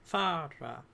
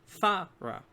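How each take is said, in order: First: Fara broken before the final vowel, Far-a; split before vowel. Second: Fa, ra broken before the r; Fa, ra syllable by syllable, the r opening the second; split before consonant. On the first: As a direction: say Fara in two parts, Far, then a. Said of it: "divide syllables before a vowel". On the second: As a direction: say Fa, ra as two parts, loud Fa, then ra. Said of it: "non-initial syllables begin with a consonant". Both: Shown as a demonstration.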